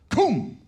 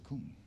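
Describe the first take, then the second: First: The word is said loudly. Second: The word is said quietly. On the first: Volume is used to show authority. "I have to say it with volume" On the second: Authority needs no volume. "he doesn't need volume to indicate authority"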